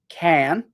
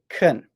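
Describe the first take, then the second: First: The vowel in can is a full ah sound. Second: The vowel in can is weak and reduced. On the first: It is a short yes answer. "It can be can, yes, I can" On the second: It comes before a verb. "and it's can, I can speak English"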